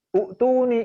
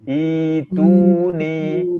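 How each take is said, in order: First: The word begins with a short u vowel. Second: The word begins with a long i vowel. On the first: The speaker calls it wrong. "U'tuni itu peringkat kedua salahnya" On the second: The speaker calls it right. "I dua harokat, i panjang"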